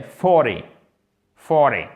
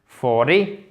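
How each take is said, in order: First: FORTY appuyé sur FOR, finale qui retombe; accent sur la première syllabe. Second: FORTY accentué à tort sur la deuxième syllabe; mauvais accent tonique. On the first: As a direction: frappe le FOR de forty, laisse descendre -ty. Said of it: "elle se fait sur la première syllabe". (forty accentué au début, ton descendant) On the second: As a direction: appuie et monte sur le -TY de forty. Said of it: "Donc, c'est pas forty". (forty avec l'accent sur la finale, à la française) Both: Shown as a demonstration.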